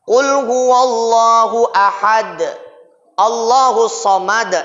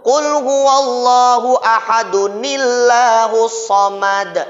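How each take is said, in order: First: The two verses are said separately with a break. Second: The two verses are joined without any break.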